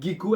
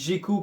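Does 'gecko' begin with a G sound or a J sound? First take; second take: G sound; J sound. First: The word begins with a hard G sound. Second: The word begins with a soft J sound. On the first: "avec la prononciation du G comme moi" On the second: "comme lui avec la prononciation du J"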